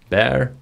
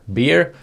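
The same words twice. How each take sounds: First: It sounds like the English word bear. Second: It sounds like the Swedish slang word bärs. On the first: It means the animal. "Bear, det är en björn" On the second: It means beer. "Bear, det är bärs"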